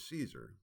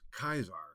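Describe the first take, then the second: First: The word begins with an s sound. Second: The word begins with a k sound. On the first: "the term that we refer to as Caesar" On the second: "was pronounced Kaiser"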